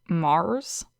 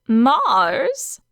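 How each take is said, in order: First: Disbelieving echo. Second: Matter-of-fact. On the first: A narrator's reading. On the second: Acted. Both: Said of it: "She said this as if it were obvious".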